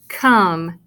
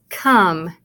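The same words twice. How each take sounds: First: The vowel is a short 'uh' sound. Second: The same.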